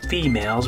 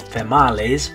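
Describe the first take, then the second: First: The word is said with English vowel sounds. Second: The word is said with Spanish-style vowel sounds. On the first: The speaker calls it right. "When we say that is females" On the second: The speaker calls it wrong. "we don't say females"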